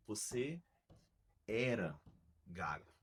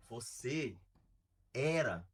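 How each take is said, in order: First: "você", "era", "gago" each alone on a click, long pauses between; words on the beat. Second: "era" hit louder on the strong syllable of the beat; stress on the beat. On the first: Coach showing a stuttering boy the beat, slow and spaced. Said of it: "então você vai falar". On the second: Coach marking the strong syllable for kids, punched on the beat. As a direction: punch "era" on the click after a pause. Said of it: "sílaba forte". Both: Shown as a demonstration.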